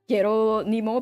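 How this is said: It is said with Japanese-style syllables. "I thought it was a Japanese word, so I uh, pronounced it as"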